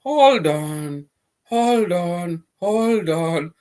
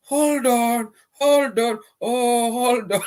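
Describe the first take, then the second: First: Said in the usual way. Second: Squeaky high playful hold on, drawn out; high mock hold on. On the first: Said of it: "Mba pile la jalni". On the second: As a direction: pitch way up and tease them to wait.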